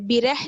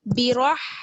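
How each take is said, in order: First: The vowel after the r is short. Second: The vowel after the r is long. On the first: The speaker calls it wrong. "बिरह नहीं" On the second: The speaker calls it right. "बल्कि बिराह"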